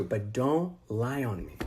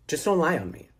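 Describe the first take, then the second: First: Slow, low, softer "don't lie on me"; slow warning. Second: Said in the usual way. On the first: Retold or imitated. Retold warning, repeated for emphasis.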